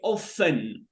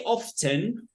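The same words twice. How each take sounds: First: The T sound is silent in the middle. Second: The T sound is pronounced in the middle. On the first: The speaker calls it right. "we say often" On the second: The speaker calls it wrong. "We don't pronounce T, right? We don't say often"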